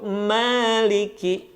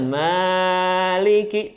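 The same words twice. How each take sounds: First: The first vowel is kept short. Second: The first vowel is drawn out long. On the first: The speaker calls it right. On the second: The speaker calls it wrong. "pada ma-nya jangan kepanjangan. ... Tidak boleh"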